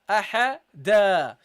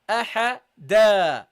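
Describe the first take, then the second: No difference in how they are said.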